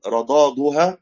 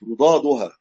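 First: رضادها with fatha on ra, "u" on the second dad; damma on second dad. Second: رضادها as "rudaduha", "u" on ra and second dad; damma on ra. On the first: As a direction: say رضادها slowly as "radaduha". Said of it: "بضم الضاد الثانية". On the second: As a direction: correct رضادها to open with "ru", then "daduha". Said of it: "بضم الراء وضم الضاء الثانية". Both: Shown as a demonstration.

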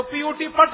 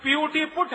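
First: "पट" with uh, as in but; deliberately mispronounced PUT. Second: "पुट" with short oo vowel; usual PUT pronunciation. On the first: Speaker argues for consistent sounds, "पट" with short uh. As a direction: spell it, then say "पट" rhyming with but. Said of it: "होना चाहिए". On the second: Speaker contrasts English spellings for audience, "पुट" with short oo. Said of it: "उच्चारण तो एक ही होना चाहिए". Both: Shown as a demonstration.

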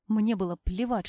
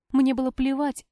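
First: Said in the usual way. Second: Louder, higher «Мне было плевать»; emphatic repeat. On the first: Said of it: "repeated phrase". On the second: A narrator's reading. Heroine insists she doesn't care, stressing «Мне». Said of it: "repeated louder".

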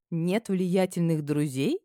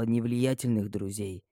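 First: Slow rising ironic влиятельных; amused echo. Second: Ни влиятельных друзей, low and slow; влиятельных drawn out, falling; low measured stress. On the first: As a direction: repeat влиятельных with a smirk, rising. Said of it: "Я с улыбкой задрала бровь". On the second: Father lists her weaknesses. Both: A narrator's reading.

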